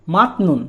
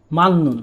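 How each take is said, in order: First: মাত নুন with a clear t at the end of মাত; wrong pronunciation demo. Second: মান নুন with the t turned into n, man-nun; correct pronunciation demo. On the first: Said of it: "নিয়ম বাদে এটির উচ্চারণ ছিল কি". (ভুল উচ্চারণ মাত নুন, ত স্পষ্ট) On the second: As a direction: give the right মান নুন with n for t. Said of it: "নিয়ম অনুযায়ী এটির সঠিক উচ্চারণ হচ্ছে". (সঠিক উচ্চারণ মান নুন, ত এর জায়গায় ন) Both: Shown as a demonstration.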